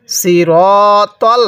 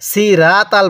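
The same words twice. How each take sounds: First: সিরতল slowly with rounded ro and heavy tol; measured সিরতল with full, rounded vowels; heavy emphatic t. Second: সিরাতাল said quickly with thin a vowels and a light t; short, unemphatic সিরাতাল; common mistake. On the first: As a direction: stretch the ro of সিরতল and thicken the t. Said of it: "এটা ত পড়ব". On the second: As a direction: run through সিরাতাল with a flat light t. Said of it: "এই জায়গার মধ্যে ভুল করি". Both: Shown as a demonstration.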